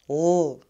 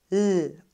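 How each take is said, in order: First: The L sound is dark and heavy. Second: The L sound is bright and light. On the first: The speaker calls it wrong. "nicht L" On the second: The speaker calls it right. "Das L wird hell ausgesprochen"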